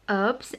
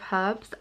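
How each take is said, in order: First: The word starts without an h sound. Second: The word starts with an h sound. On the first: This is the American way of saying it. "American people ... says herbs" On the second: This is the speaker's own usual way of saying it. "instead of herbs"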